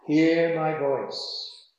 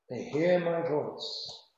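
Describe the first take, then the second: First: "hear" drawn out slowly and weighted; slow stress on hear. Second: "hear" stretched slow and firm in the repeat; stress on hear, repeated. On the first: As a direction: lean on "hear", slowing the whole phrase. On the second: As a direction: dwell on "hear" as you repeat the verse. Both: Shown as a demonstration.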